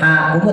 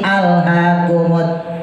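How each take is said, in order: First: The opening 'a' sound is dropped entirely. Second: The opening 'a' sound is clearly pronounced. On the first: The speaker calls it wrong. "nggak boleh" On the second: The speaker calls it right. "ketika kita wasolin"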